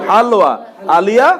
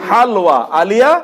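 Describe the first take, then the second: The two takes are said the same way.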